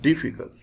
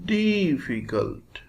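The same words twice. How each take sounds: First: The vowel after the D is very short. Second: The vowel after the D is long. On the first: The speaker calls it right. "After D, after the sound, there is very short sound" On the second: The speaker calls it wrong. "it cannot be read like this"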